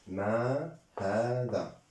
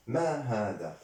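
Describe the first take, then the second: First: "ما هذا" slowly, each word drawn out; slow model. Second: Said in the usual way. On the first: Shown as a demonstration. Teacher modelling "ما هذا" for French-speaking learners, slow and drawn out. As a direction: stretch the long vowels of "ما هذا".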